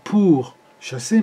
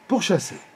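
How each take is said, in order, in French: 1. Chaque syllabe est dite séparément, avec de petites pauses. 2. Les syllabes s'enchaînent en un seul bloc fluide. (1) "C'est un petit peu syllabé là. C'est pas" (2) "mais bien"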